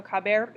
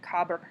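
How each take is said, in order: First: Said in the usual way. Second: Caber said without its E, as cabr; E dropped. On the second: Shown as a demonstration. Teacher showing the irregular stem, caber shortened to cabr. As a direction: run the b straight into the r in caber. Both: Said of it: "the E disappeared".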